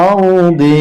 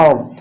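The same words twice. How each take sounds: First: আরদি with the final "i" sounded; full vowel ending. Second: আরদ stopped on the consonant d; pausal pronunciation. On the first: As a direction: pronounce আরদি through to its last vowel. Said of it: "এখানে যখন থামবো". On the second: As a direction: drop the final vowel in আরদ. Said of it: "উচ্চারণটা হবে আরদ". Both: Shown as a demonstration.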